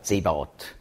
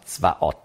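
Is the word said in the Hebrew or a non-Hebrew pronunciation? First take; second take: non-Hebrew; Hebrew. First: The word is said in a non-Hebrew pronunciation. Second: The word is said in the Hebrew pronunciation. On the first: "Oder Zebaot" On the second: "Hebräisch spricht man aus Zvaot"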